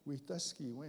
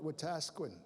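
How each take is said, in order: First: The name is said with its original Cree pronunciation. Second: The name is said with a common anglicized pronunciation. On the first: This is the original form of the name. The speaker calls it right. "it's actually" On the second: This is how most people say the name. The speaker calls it wrong. "People call it"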